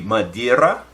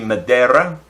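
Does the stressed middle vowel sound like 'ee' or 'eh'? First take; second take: ee; eh. First: The stressed middle vowel sounds like 'ee'. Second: The stressed middle vowel sounds like 'eh'. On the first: "if you're pronouncing the uh, I" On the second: "if you're pronouncing the E"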